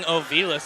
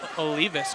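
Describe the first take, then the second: First: The second consonant of the name is V. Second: The second consonant of the name is L. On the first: The speaker calls it wrong. "I've been saying Ovilas" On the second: The speaker calls it right. "It's Olivas"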